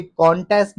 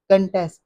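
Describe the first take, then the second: First: कॉन्टेस्ट as KON-test; wrong pronunciation. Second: कंटेस्ट as kun-TEST; short uh in कंटेस्ट; correct pronunciation. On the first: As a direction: open O in कॉन्टेस्ट. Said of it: "कॉन्टेस्ट नहीं है". (कॉन्टेस्ट ग़लत, कॉन-टेस्ट) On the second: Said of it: "कंटेस्ट है". (कंटेस्ट सही, कन-टेस्ट) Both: Shown as a demonstration.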